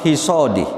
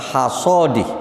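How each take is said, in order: First: The first vowel is a close i. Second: The first vowel is an open a. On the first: "wal kasri lan dibaca kasroh" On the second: "bil fathi kelawan dibaca fathah"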